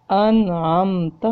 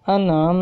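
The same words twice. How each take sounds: First: انعمت read slowly with a short clean meem, no nasal hold; clear meem, no ghunna. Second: انعم with the meem wrongly nasalized and held long; wrong lengthened meem. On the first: Teacher demonstrates the correct izhar reading. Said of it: "اظہار کر کے بغیر غنہ کے". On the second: Teacher demonstrates the wrong way to read انعمت. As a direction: drag out the meem in انعم as a mistake. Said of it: "ایسے نہیں پڑھنا". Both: Shown as a demonstration.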